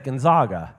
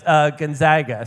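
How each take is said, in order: First: The name is pronounced in a Spanish-sounding way. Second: The name is pronounced in an English-sounding way. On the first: The speaker calls it wrong. "Because that sounds like the Spanish" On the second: The speaker calls it right. "he told me it's Gonzaga"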